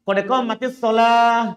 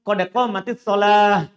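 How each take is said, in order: Both takes have the same delivery.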